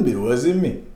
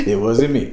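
First: A light "It wasn't me" in the style of a singer; a singer's denial. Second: High, loud "It wasn't me" through laughing; laughing singer-style denial. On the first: The accused brushes it off, a light shrug in the style of a singer. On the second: The accused denies it again, high and laughing. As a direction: crack up while denying it. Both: Retold or imitated. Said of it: that they're not the singer.

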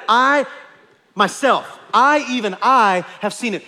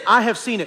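First: "I" and "myself" set apart with pauses and loud weight; emphatic stress. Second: Said in the usual way. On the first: Shown as a demonstration. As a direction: land every "I" then "have seen it". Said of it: "It's emphatic". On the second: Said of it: "He doesn't just say".

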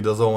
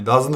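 First: Dazon said as two syllables, da-zon, with an o; correct pronunciation. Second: Dazn said as one clipped syllable with no vowel before n; wrong pronunciation. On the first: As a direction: say dazon, not dazn: da-zon. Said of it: "że to się mówi dazon". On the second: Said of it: "a nie dazn". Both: Shown as a demonstration.

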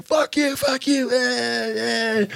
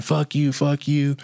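First: High-pitched mock road-rage yell; imitated angry yelling. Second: Mild mock yell, slightly higher; retold yelling. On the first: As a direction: jeer it in a high, cartoonish voice. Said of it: "still saying". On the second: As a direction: lightly imitate a man yelling curses.

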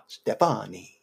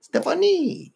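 First: Mock Italian, drawn out; playful Italian-style name call; Italian accent. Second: High, far-off mock French; hammed-up French name call; French accent. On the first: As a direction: say her name like an Italian charmer. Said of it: "you did an Italian accent". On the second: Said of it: "then you did a French accent".

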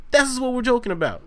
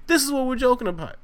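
No difference in how they are said.

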